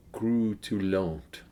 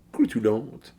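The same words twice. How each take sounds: First: Croutillante drawn out very slowly in a French accent, pitch falling at the end. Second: Croutillante said quickly in a French accent, rising at the end like a question. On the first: A beer reviewer slowly tries the French word for crisp in a French accent. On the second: A beer reviewer tries the French word again in a French accent, rising. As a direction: toss off Croutillante in a French accent with an unsure lift. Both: Shown as a demonstration. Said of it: "I'm doing it in a French accent".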